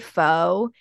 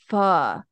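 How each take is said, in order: First: The word sounds like 'foe'. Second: The word does not sound like 'foe'. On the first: The speaker calls it wrong. "did you just say pho?" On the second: The speaker calls it right. "it's pho"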